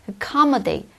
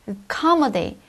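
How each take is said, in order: Both takes have the same delivery.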